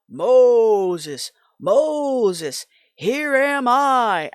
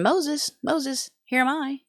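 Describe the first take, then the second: First: It is said in a big, strong voice. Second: It is said in an ordinary, undramatic voice.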